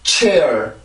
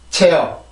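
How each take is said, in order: First: English pronunciation, with a strong burst of air. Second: Korean pronunciation, with much less air. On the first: "영어로 있는 이 단어" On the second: "우리나라 말로 이걸 어떻게 쓰나요? 이렇게 쓰죠. 체어"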